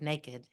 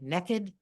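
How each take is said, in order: First: The word is said in a standard accent. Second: The word is said in a Southern accent. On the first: "instead of" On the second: "as my Southern husband would say"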